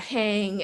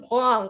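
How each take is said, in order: First: The name has no w sound after the H. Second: The name has a w sound after the H. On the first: The speaker calls it wrong. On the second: The speaker calls it right. "There's a U in there"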